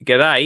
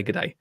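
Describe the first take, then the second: First: Brief put-on Australian greeting; Australian accent. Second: Said in the usual way. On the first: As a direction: say it like a friendly Australian. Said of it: "I'll do the accent as well". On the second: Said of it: "He doesn't say".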